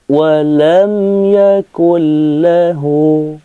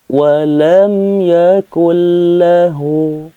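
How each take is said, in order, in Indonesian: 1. Bunyi n menyatu dengan l yang mengikutinya. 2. Bunyi n menyatu dengan l yang mengikutinya.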